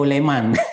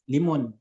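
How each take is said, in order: First: The first syllable has the vowel e. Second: The second syllable has the vowel u. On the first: "Atau leman" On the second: "Jangan dibaca mun ya"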